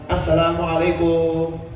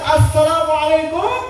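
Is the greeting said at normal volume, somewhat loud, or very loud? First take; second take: normal; very loud. First: The greeting is said at normal volume. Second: The greeting is said very loudly.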